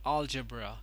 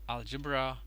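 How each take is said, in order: First: The stress falls on the first syllable. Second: The stress falls on a later syllable. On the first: The speaker calls it right. "The stress is put on the first syllable over here" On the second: The speaker calls it wrong. "It is actually not algebra"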